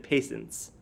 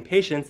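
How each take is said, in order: First: "patience" said as PAY-sense, S for SH; "patience" mispronounced as "pay-sunce"; substituted sound. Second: Said in the usual way. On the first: Shown as a demonstration. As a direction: say "patience" with an S in the middle. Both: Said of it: "they could have substituted a sound".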